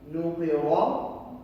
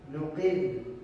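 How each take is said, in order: First: The r is thick, followed by a vowel. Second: The r is thin, ending the word. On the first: The reading continues on without stopping. "The thick sounding pronunciation" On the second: The reading stops on this word. "Very thin, very soft recitation"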